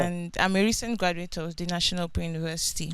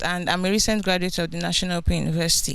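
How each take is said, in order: First: Soft and hard to hear; too quiet at first. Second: Speaking up. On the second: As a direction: raise your voice to be heard. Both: Real, not acted. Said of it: "Can you speak up, please?".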